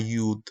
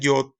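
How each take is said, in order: First: The vowel sounds like 'oo'. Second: The vowel sounds like 'o'. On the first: This is the revised pronunciation. "se cambió a yud" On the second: This is the older pronunciation. "que aquí todavía vemos que dice yod"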